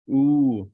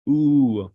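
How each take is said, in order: First: The vowel is held long. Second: The same.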